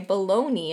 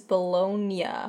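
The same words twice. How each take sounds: First: The word ends with a 'nee' sound. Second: The word ends with a 'nya' sound. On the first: "it's common to say Bologna instead" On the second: "The correct pronunciation is Bologna"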